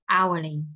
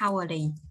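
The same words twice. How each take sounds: First: The word begins with a vowel, h silent. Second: The word begins with an audible h sound. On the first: The speaker calls it right. "mình sẽ đọc là hourly" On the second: The speaker calls it wrong. "chúng ta không đọc là hourly"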